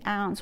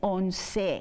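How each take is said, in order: First: The final vowel is dropped and silent. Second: The final vowel is clearly pronounced. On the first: The speaker calls it wrong. "we don't say ounce" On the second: The speaker calls it right. "we say once. So we pronounce every vowel"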